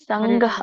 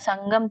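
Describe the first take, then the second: First: It is said with an aspirated 'gh' and no final m. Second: It is said with a plain 'g' and a final m. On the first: The speaker calls it wrong. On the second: The speaker calls it right.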